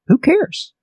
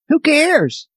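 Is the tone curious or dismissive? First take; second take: curious; dismissive. First: It sounds like an open, curious question. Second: It sounds bitter and dismissive. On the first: Asking which people care and could help. The speaker calls it right. "is a productive question" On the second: Nobody cares about what happened. The speaker calls it wrong. "nobody cares that this happened to me"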